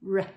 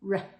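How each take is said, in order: First: The sound is short and clipped. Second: The same.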